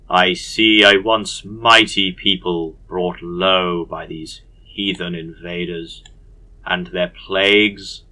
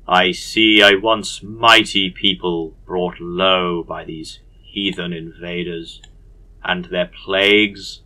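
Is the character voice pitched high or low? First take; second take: low; low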